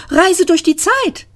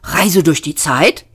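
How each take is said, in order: First: Much higher, puzzled rise; a bemused high echo; Trillian's question. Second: Said in the usual way. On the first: Acted. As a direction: echo it in disbelief.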